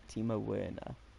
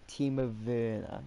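First: Werner is pronounced in the English way. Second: Werner is pronounced not in the English way. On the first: The speaker calls it wrong. "Not Timo Werner" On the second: The speaker calls it right. "Native English speakers are unable to say Werner"

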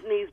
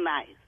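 First: It sounds like the word 'niece'. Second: It sounds like the English word 'nice'. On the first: This is how locals say the city's name. "it's pronounced Nice" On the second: This is the name read as it is spelled. "but it's spelled Nice"

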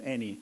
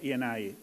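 First: The name is pronounced the Italian way. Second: The name is pronounced the English way. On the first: The speaker calls it right. "it's the Italian name" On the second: The speaker calls it wrong. "not Eni"

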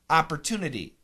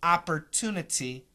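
First: The second T is a flap like D. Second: The second T is a clear, crisp T. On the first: "most Americans are going to take the second T and flap it" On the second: "the perfect pronunciation"

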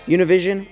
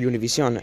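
First: The name has an English pronunciation. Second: The name has a Spanish pronunciation.

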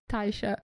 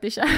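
First: The name begins with a 'tai' diphthong sound. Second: The name begins with a short 'ty' sound. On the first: The speaker calls it wrong. "Wszyscy nie umieją wymówić, jak się nazywa, mówią Tajsza" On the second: The speaker calls it right. "Ale wyszła Tysia"

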